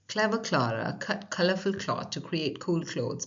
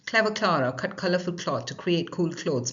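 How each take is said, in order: First: It is spoken at a slow pace. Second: It is spoken at a fast pace. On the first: "let's say it slowly first" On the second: "Now faster"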